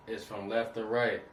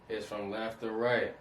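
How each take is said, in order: First: Said in the usual way. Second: "It's from left to right" said slowly, each word weighted; slow emphatic repeat. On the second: Shown as a demonstration. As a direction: drive the point home, slowing down.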